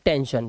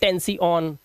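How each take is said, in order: First: The word ends with a single 'shun' sound. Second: The word ends with separate 'see-on' sounds. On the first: The speaker calls it right. "शन की आवाज निकाल रहे हैं" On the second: The speaker calls it wrong. "अब इसे ऐसे नहीं पढ़ेंगे"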